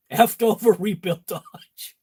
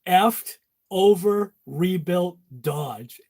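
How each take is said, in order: First: Repeats the punchline through a laugh; laughing retelling. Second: Drawn out slowly, word by word; slow punchline delivery. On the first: Real, not acted. To viewers, recalling the joke while laughing. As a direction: chuckle through the joke again. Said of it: "I thought that was a good one". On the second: Shown as a demonstration. To viewers, slow deliberate joke reveal.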